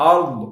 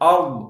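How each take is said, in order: The two takes are said the same way.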